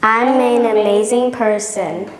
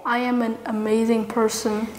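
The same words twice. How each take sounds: First: Booming motivational speech. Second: Soft, calm affirmation to repeat; quiet affirmation. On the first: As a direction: boom it back with pride. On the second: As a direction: say it gently for them to echo. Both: Shown as a demonstration. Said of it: "Repeat after me".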